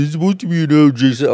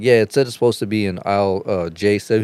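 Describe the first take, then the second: First: Higher, louder, fast sneering echo; mocking mimicry. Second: Said in the usual way. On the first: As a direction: rattle it back fast to mock him. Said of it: "Since you like mocking motherfuckers".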